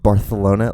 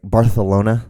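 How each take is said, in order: First: BARCELONA with the c said as "th"; lisped c. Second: Said in the usual way. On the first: Shown as a demonstration. Showing listeners the Spain lisp, "th" in Barcelona. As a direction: lisp it like Bar-the-lona. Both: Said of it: "with that little bit of a lisp".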